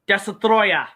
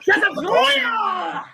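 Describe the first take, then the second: First: It is said flatly, without much feeling. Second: It is said loudly with strong feeling.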